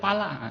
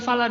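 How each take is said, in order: First: The word begins with a P sound. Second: The word begins with an F sound. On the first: The speaker calls it wrong. "dia baca pala" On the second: The speaker calls it right. "baca bukan fala"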